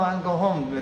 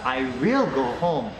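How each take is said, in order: First: The pronoun and verb are joined in a contraction. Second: The pronoun and verb are said as separate words. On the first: It simply declines an invitation to stay longer. "No, no, no, I'll go home" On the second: It firmly insists on leaving after repeated pressure. "すごくしつこくしてからI will go home、帰んなきゃいけないんだということですね"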